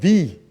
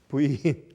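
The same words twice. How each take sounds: First: The letter is said with English sounds. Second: The letter is said with Korean sounds. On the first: "영어 단어면" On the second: "순수한 한국말 저 발음으로"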